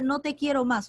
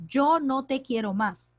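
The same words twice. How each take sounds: First: Said in the usual way. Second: "yo" stressed, slow. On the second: Shown as a demonstration. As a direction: hit "yo" to show the subject. (acento en "yo", despacio) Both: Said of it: "el sujeto sería yo".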